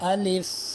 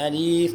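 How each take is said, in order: First: The second vowel is kept short. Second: The second vowel is drawn out long. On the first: The speaker calls it right. "यूँ पढ़ेंगे" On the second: The speaker calls it wrong. "बाज़ बच्चे इसको खींच कर पढ़ते हैं, अलीफ़ पढ़ते हैं, ये गलत है।"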